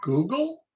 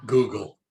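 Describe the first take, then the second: First: "Google" with a high rising question tune; questioning prompt. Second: "Google" low and falling, said louder; firm model word. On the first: Caller coaxes toddler to say Google, questioning. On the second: Caller shows toddler how to say Google, firm. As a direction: drop "Google" firmly as a statement. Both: Shown as a demonstration.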